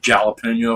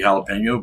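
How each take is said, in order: First: The word is pronounced the English way. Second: The word is pronounced the Spanish way. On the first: The speaker calls it wrong. "it's English. ... but I'll say jalapeno if I want" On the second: The speaker calls it right. "I know it's supposed to be jalapeno"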